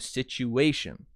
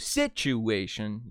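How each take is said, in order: First: The main stress falls on the 'a' syllable. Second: The main stress falls away from the 'a' syllable. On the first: The speaker calls it right. "you go situation" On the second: The speaker calls it wrong. "you don't go situation"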